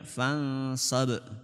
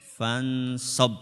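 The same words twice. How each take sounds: First: The final b ends with an echoing bounce. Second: The final b stops flat without a bounce. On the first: "Kalau dipantulkan" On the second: "Kalau enggak dipantulkan"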